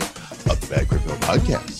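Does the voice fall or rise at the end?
rise. The voice rises at the end.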